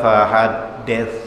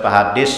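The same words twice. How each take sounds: First: It ends with the tongue tip between the teeth. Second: It ends with a hissing s sound. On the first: The speaker calls it right. "Itu huruf lisan paling ujung" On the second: The speaker calls it wrong. "Bila fahaddits salah"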